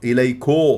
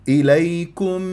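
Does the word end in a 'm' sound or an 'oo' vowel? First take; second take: oo vowel; m sound. First: The word ends in an oo vowel. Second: The word ends in a clear m sound. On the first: The speaker calls it wrong. "خطأ" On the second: The speaker calls it right. "رققت الكاف والميم. الميم مظهرة"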